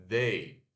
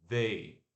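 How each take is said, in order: Both takes have the same delivery.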